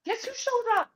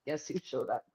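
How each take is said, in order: First: Much higher, teasing guess; playful build-up to the surprise. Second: Lower, softer repeat of the tease; teasing the listener, low and sly. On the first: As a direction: dangle the big reveal up high. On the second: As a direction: drop it down low and knowing. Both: Shown as a demonstration.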